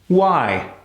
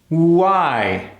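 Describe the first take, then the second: First: The W sound is very short. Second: The W sound is held shorter. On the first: "Now let's cut it even shorter" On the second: "Now let's cut the length of that W"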